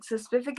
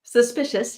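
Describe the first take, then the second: First: "suspific" said with "f" in place of "sh"; lisped mispronunciation. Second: "Suspicious" said correctly, sus-PI-shus; correct pronunciation. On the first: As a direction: say "suspific" swapping the "sh" for an "f". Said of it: "as in, like, a singular thing". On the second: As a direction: say "Suspicious" cleanly with a clear "sh". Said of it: "No, sus". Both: Shown as a demonstration.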